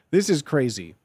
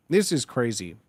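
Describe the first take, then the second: No difference in how they are said.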